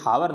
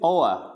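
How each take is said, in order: First: The word starts with an h sound. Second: The word starts with a vowel sound. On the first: The speaker calls it wrong. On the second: The speaker calls it right.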